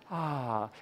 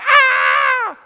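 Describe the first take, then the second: First: It is a soft, breathy sigh. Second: It is a loud, sharp scream.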